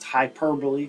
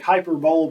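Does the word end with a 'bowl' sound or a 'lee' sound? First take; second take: lee; bowl. First: It ends with a 'lee' sound like simile. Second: It is said the way it is spelled. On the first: The speaker calls it right. "it's pronounced hyperbole, kind of, you know, similar in pronunciation to simile" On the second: The speaker calls it wrong. "it looks like hyperbole"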